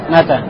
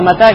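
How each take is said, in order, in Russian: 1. Ударение на первом слоге. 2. Ударение на втором слоге. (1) "ты можешь неправильно поставить ударение" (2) "Здесь уже мата. На второй слог"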